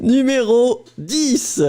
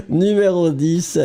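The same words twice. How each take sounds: First: High, slow, hammed-up French teacher. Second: Said in the usual way. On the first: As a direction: draw out Numéro dix like a teacher. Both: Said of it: "you literally sound like my French teacher".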